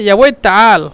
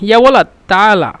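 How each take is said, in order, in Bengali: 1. এটি মিশরীয় আঞ্চলিক ভাষার সংক্ষিপ্ত রূপ। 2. এটি পূর্ণাঙ্গ আদর্শ আরবি রূপ। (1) "ইয়াওয়ালাদের পরিবর্তে তারা বলে ইয়াওয়ে তাল" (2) "কেউ যদি ডাকে যে ইয়াওয়ালাদ তালা"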